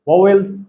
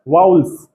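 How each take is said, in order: First: The word has two full syllables, va-vels. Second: The word glides as vowls, nearly one syllable. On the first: The speaker calls it wrong. "पहले तो हम लोग बोलते थे वावेल्स" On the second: The speaker calls it right. "इसका actual pronunciation होता है वाउल्स"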